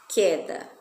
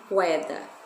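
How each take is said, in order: First: The u sound is silent after the k. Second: The u sound is pronounced after the k. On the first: The speaker calls it right. "esse que o é também fica mudo" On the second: The speaker calls it wrong. "não queda"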